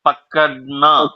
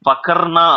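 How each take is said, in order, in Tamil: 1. நடுவில் உள்ள மெய்யெழுத்து t போல ஒலிக்கிறது. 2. நடுவில் உள்ள மெய்யெழுத்து r போல ஒலிக்கிறது. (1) "ஆர் இருக்கு ஆனா டி சவுண்ட் வரும்" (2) "அங்க எழுதிருக்கிறது பக்கர்னான் இருக்கு"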